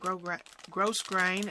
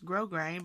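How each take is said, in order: First: The first syllable ends with an s sound. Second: The first syllable has no s sound. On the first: It follows the spelling. The speaker calls it right. "that's actually how you're supposed to pronounce that" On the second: It is the form others usually say. The speaker calls it wrong. "I always heard it pronounced grosgrain"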